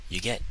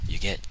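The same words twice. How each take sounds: The two takes are said the same way.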